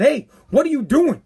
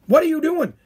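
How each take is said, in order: First: A questioning "doing" with a mild mock edge; confronting yell. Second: "What" hit higher and harder, falling at the end; louder retold yell. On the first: Host retelling confronting the cracker eater, mild mock yell. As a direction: call him out on the crackers. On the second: Host repeating the challenge to the cracker eater, a louder mock yell. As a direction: press him harder the second time. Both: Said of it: "I was yelling at this guy".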